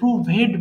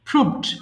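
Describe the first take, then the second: First: The ending is said as an extra syllable. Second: The ending joins the word without an extra syllable. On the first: The speaker calls it wrong. "ওই ভিইডি কে ভেড বলে প্রুভেড বলে ফেলে" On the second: The speaker calls it right. "কিন্তু এটার উচ্চারণ প্রুভড"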